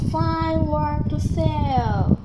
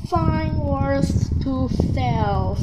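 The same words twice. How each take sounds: First: Slow calling peddler cry, repeated; drawn-out hawker's call; old peddler woman calling. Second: Slow calling peddler cry; old peddler woman calling. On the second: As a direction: call out your wares slowly. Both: A narrator's reading. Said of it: "She knocked the door and cried".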